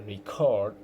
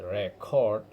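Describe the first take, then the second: First: Re-CORD, second syllable stressed. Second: RE-cord, first syllable stressed. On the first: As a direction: say record as the verb, re-CORD. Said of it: "the stress on the second syllable". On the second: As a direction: say record as the noun, RE-cord. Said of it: "stress on the first syllable". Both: Shown as a demonstration.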